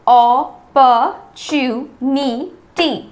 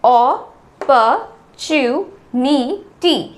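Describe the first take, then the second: No difference in how they are said.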